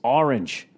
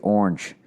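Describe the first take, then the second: First: Orange is said in the standard way. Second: Orange is said in a nonstandard local way. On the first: "And they're going, it's it's orange" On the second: "One of my relatives could not say orange. He used to say orange"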